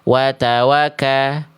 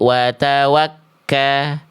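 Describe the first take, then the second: First: The k sound is short and single. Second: The k sound is held and doubled. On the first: The speaker calls it wrong. "jangan sampai watawaka" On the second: The speaker calls it right. "ditekan dulu huruf kafnya"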